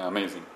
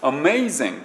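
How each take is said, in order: First: It is said with Japanese-style syllables. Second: It is said with English-style syllables. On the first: "今僕日本語的に喋ってますこれね" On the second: "英語っぽくなる"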